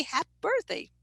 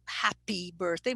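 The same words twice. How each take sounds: First: HAPPY clipped to "hap", final vowel gone; learner's hypercorrection. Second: Said in the usual way. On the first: Shown as a demonstration. Student reasoning out a wrong rule, hypercorrected. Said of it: "must be happy birthday". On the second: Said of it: "so it's not happy birthday".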